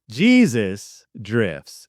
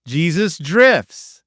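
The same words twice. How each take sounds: First: Lower, slow, portentous reading; a hint of a movie-trailer voice; mock ominous. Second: Said in the usual way. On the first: Shown as a demonstration. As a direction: intone it like a solemn prophecy. Reading out his word-search fortune.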